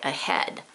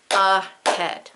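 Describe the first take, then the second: First: Said in the usual way. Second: "ahead" sounded out as uh, then head; stretched "ahead", both syllables given weight; split into syllables. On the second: Shown as a demonstration. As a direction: break "ahead" into two clear beats. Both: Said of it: "but with the uh".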